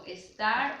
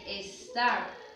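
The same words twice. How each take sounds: First: The s before the t is fully pronounced. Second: The s before the t is aspirated. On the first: "nosotros lo decimos como estar o escuarzo, que es normal" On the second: "en Argentina o en Uruguay se dice estar"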